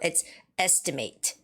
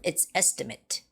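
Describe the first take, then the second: First: The last syllable is full, like 'mate'. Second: The last syllable is reduced, like 'mit'. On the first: It is used as a verb. "when it's a verb, it's estimate" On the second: It is used as a noun. "when it's a noun, it's estimate"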